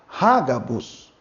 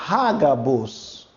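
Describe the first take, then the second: The two takes are said the same way.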